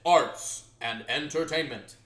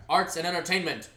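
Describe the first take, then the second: First: Slow, loud, over-enunciated title; hammed-up stately announcement; grandiose enunciation. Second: Said in the usual way. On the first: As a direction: stretch out ARTS and ENTERTAINMENT syllable by syllable. Repeats title in overblown slow way.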